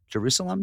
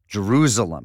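First: The word is said with its usual sounds. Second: The word is said with a Z sound. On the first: This is how the city's name is normally said. "Not Jerusalem" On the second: This mimics an odd pronunciation heard from someone else. "with a Z"

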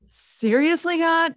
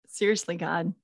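First: It is said with strong, exasperated emotion. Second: It is said with little exasperation. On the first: The speaker calls it right. "Turn it up even more" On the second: The speaker calls it wrong. "Let me say it correctly"

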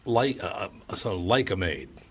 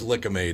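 First: The first syllable sounds like 'like'. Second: The first syllable sounds like 'lick'. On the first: The speaker calls it wrong. "That would be pronounced like, not lick" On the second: The speaker calls it right. "But it was Lick-A-Maid, apparently"

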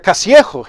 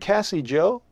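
First: The name is said with a Spanish accent. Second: The name is said with an English accent. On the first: The name is taken to be Spanish. The speaker calls it wrong. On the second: The name is two English names. The speaker calls it right.

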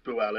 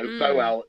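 First: The first vowel sounds like U. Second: The first vowel sounds like O. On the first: "is pronounced Buau anyway" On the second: "So Boal"

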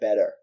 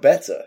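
First: The T is soft, like a quick D. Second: The T is crisp and clearly pronounced. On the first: The speaker calls it wrong. "when she was going through it, she said better" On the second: The speaker calls it right. "say that one like better and then you'll sound better"

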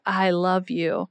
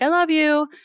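First: It is said slowly, warmly and sincerely. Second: It is said quickly and casually, in passing.

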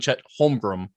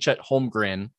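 First: The name is said ending with an M sound. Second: The name is said ending with an N sound. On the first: The speaker calls it wrong. "I was saying Chet Holmgren with an M" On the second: The speaker calls it right. "instead of saying Chet Holmgren with an N"

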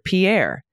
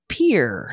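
First: The name is said with a French pronunciation. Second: The name is said with an American pronunciation. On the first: This is how the Canadian name is said. "I would have pronounced it like this, like our then prime minister" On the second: This is how the Nebraska town is said. "But in Nebraska, it's pronounced Pierre"

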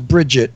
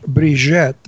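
First: The name is said with an American accent. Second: The name is said with a French accent. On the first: It sounds plain, like an Irish name. The speaker calls it wrong. "When you say it in American, it sounds Bridget. It sounds Irish" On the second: It sounds sexy. The speaker calls it right. "But when you do it French"

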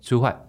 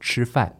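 First: It is said with a Taiwanese Mandarin accent. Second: It is said in standard Mandarin with clear retroflex.

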